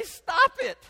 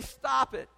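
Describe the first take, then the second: First: Sudden high, loud mock yell; frustrated parent yell. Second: Said in the usual way. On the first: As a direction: snap at the screaming baby. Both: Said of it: "And you wanna say".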